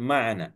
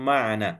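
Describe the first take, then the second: No difference in how they are said.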